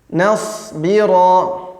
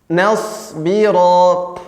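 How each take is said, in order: Both takes have the same delivery.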